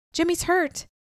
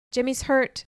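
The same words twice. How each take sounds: First: High, urgent cry of alarm. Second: A mild yell across the wind. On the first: Acted. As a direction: blurt it out in shock. Sees friend shot, cries out. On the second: A narrator's reading. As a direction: call it out to a rider. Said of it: "Sam yelled to Henry".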